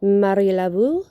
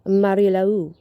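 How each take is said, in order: First: "Laveau" with a V sound, la-VOO, rising; first option, "Laveau" as la-VOO with a questioning rise; first pronunciation variant. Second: "Laveau" without the V, la-OO, falling; second option, "Laveau" gliding as la-OO, closing tune; second pronunciation variant. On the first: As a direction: say "Marie Laveau" as Marie la-VOO, lifting at the end. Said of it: "you can pronounce it". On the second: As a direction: say "Marie Laveau" as Marie la-OO, dropping at the end. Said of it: "or you can pronounce it". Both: Shown as a demonstration.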